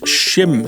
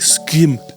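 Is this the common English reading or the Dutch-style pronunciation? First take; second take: English; Dutch-style. First: It is said in the common English reading. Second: It is said as an attempted Dutch-style pronunciation. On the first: This is how most people have been saying it. The speaker calls it wrong. "pretty much everyone has been referring to this game as Schim" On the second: This is how the developers say it. The speaker calls it right. "It was like Skim or something like that, but I can't do it"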